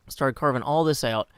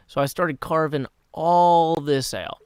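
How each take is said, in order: First: Said in the usual way. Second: "all" held long and loud; drawn-out ALL. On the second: Real, not acted. Streamer showing off the huge excavation, "all" stretched long.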